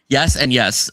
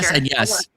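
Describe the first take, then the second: First: It is said forcefully, with strong emphasis. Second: It is said flatly, without much emphasis.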